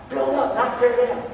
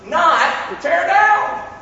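First: Said in the usual way. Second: "not tear down" dragged out slowly, high. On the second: Shown as a demonstration. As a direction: stretch every word for emphasis. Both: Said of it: "watch this".

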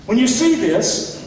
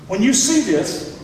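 The two takes are said the same way.

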